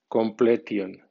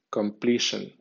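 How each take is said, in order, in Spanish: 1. Se lee con sonidos de letras españolas. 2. Se lee con sonidos y acento ingleses. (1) "como si fuera española" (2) "en pronunciación inglesa"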